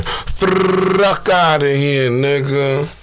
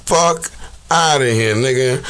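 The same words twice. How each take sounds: First: Catchphrase stretched out very slowly; Smack. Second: Said in the usual way. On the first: Retold or imitated. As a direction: drag out "Fuck outta here" in imitation. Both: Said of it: "In the smack version".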